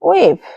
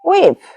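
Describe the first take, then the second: First: The two words merge into one short syllable. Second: The two words merge into one short syllable.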